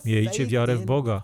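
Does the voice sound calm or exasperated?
calm. It is said in a calm, gentle way. A plain, kindly encouragement. The speaker calls it wrong. "prawdopodobnie nie było to coś w rodzaju"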